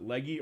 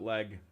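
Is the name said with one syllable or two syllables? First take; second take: two syllables; one syllable. First: The name is said with two syllables. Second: The name is said with one syllable. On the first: The speaker calls it wrong. "Is it Leggy" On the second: The speaker calls it right. "or is it Leg? ... It's Leg. You're right"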